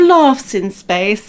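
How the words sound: The vowel in laughs is long and broad. It is said the way posh local people say it.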